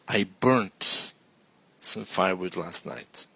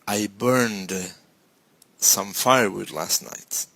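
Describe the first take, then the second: First: The verb ends with a T sound. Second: The verb ends with a D sound. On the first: This is the British form. "in British English it's burnt with the T" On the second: This is the American form. "Would be very American with ed"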